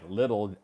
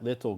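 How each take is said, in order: First: The middle consonant sounds like a quick d. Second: The middle consonant sounds like a clear t. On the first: The speaker talks fast. "Some people talk really fast, so it sounds like little L I D D" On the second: The speaker talks more slowly. "some people talk maybe a little slower and say"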